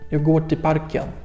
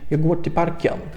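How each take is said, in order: Both takes have the same delivery.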